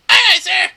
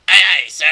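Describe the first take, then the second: First: Very high, loud sailor's reply; high-pitched eager shout; squeaky crew member. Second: Loud crewman's reply; loud sailor's acknowledgement; crew member. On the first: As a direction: pipe up loudly as a high-voiced crewman. Voicing second crew member, higher. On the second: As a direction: call out as an obedient sailor. Voicing crew members answering in turn. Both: Acted.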